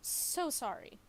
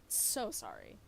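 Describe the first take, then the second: First: High, loud sarcastic "So sorry"; sarcastic "So sorry", pitched up; mock apology. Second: "So sorry" dropped very low in a sarcastic growl; sarcastic "So sorry" in a deep voice; deep mock apology. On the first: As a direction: sing out "So sorry" with fake contrition. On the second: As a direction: repeat "So sorry" way down low, mocking.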